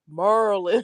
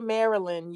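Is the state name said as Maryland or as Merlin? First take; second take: Merlin; Maryland. First: The name is said as Merlin. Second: The name is said as Maryland. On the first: This is how locals say it. "y'all say Mer Merlin" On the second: This is how outsiders say it. "y'all don't say Maryland"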